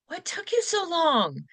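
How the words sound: It sounds worried and caring.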